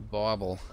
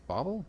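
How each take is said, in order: First: Said in the usual way. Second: Bauble? asked with a rising tune; questioning rise. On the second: Shown as a demonstration. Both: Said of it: "Sure, bauble".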